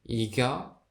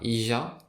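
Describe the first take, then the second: First: The middle consonant is a hard G sound. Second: The middle consonant is a soft J sound. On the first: "on peut dire Iga" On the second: "on peut aussi prononcer ça Ija"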